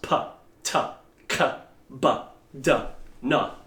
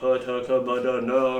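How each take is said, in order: First: Each consonant is popped out crisply and clearly. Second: The consonants are slurred together and mumbled. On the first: The speaker calls it right. "really having that plosive action there" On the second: The speaker calls it wrong. "mincing your words like"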